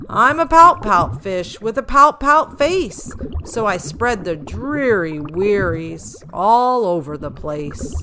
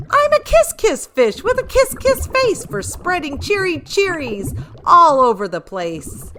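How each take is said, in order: First: Gloomy pout-pout refrain. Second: High, loud and beaming with delight; the fish bursting with new cheer; high gleeful kiss-kiss chant; joyful kiss-kiss refrain. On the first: Fish sings his gloomy refrain. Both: Acted.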